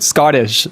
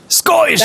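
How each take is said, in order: First: Said in the usual way. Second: High, hammed-up Scottish accent on the one word. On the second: Shown as a demonstration. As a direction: burst out with an exaggerated Scottish accent. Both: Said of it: "I can only say the word Scottish".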